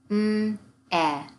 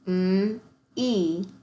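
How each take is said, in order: First: The vowel is sounded as a short e. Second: The vowel is sounded as a long e. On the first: The speaker calls it wrong. "that is not the way this word is pronounced" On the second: The speaker calls it right. "both have that E sound at the end"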